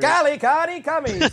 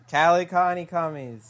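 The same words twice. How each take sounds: First: It is said with lively enthusiasm. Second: It is said flatly, without enthusiasm.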